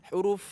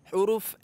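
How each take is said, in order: The two takes are said the same way.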